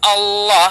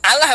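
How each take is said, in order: First: It is pronounced with Arabic sounds. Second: It is read plainly as spelled, Indonesian-style. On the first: The speaker calls it right. "tapi Allah" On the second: The speaker calls it wrong. "bukan Allah bacanya"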